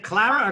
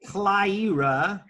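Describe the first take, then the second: First: Clara, said as spelt with no 'eye' sound; Clara, plain 'a' vowel rather than 'eye'; first pronunciation option. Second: Clyra, with an 'eye' sound in the first syllable; Clyra, drawn out slowly as the other option; alternative pronunciation. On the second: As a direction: offer Clyra as KLY-ruh. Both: Shown as a demonstration. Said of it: "is it Clara or Clyra?".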